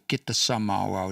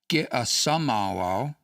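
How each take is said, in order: First: A t sound joins the two vowels. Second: No t sound joins the two vowels. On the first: The speaker calls it right. "you'll put the T in there" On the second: The speaker calls it wrong. "you wouldn't say"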